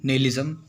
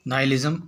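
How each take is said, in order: First: The first syllable sounds like 'nay'. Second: The first syllable sounds like 'nye'.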